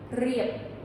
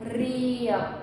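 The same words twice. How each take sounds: First: The word is said quickly. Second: The word is said slowly. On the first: "just get it faster" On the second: "So just take it very slow"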